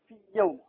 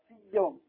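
First: The first ya merges into the next ya. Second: The same.

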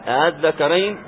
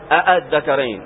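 First: The second hamza is softened between alif and hamza. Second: Both hamzas are pronounced fully. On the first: The speaker calls it right. "يسهل الثانية ... بين الألف والهمزة" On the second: The speaker calls it wrong. "ما تقول الذكرين، لم يتكلم بهذا العرب"

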